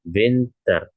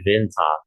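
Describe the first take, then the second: First: The ending is said with an r sound. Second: The ending is said without an r, British-style. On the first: "W tadi ya, dibacakan menjadi V" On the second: "seperti halnya orang British, dia bilang R"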